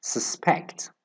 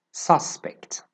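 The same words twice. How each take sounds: First: Su-SPECT with the stress on SPECT, said quietly; stress on the second syllable. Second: SUS-pect with the stress on SUS; stress on the first syllable. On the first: Teacher shows the verb stress: su-SPECT. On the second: Teacher shows the noun stress: SUS-pect. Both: Shown as a demonstration. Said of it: "the differences in the stress pattern".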